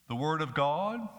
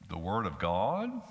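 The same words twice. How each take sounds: First: It is said flatly, without any interest. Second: It is said doubtfully, like a skeptical question. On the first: The phrase does not matter to the speaker. "it might simply be a matter of indifference to us" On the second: The speaker questions whether it is true. "We might say it with credulity. Could this book really be the word of God?"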